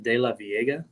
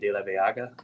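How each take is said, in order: First: The name is said in the anglicized way. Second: The name is said in the Spanish way. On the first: This is how people on the tour say it. "they they pronounce it De La Viega" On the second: This is the original Spanish form. "it's a Spanish word which would be De La Vega"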